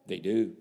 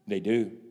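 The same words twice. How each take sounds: The two takes are said the same way.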